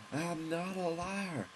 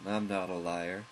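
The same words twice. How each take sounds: First: Slow, high, hammed-up proclamation of honor; mock heroic declaration. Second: Said in the usual way. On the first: Gamer vowing to fight the dojo, a hammed-up slow high vow. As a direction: stretch it out high like a grand vow.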